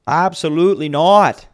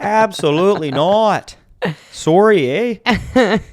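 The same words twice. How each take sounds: First: Put-on Canadian accent. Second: High, loud hammed-up Canadian accent; over-the-top Canadian accent. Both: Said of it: "the accent I cannot do".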